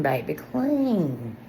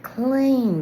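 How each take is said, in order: First: Sassy slow clean. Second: Clean swept up high and loud; emphatic clean. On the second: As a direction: sing out Clean with real delight. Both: Real, not acted. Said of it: "I just feel so clean".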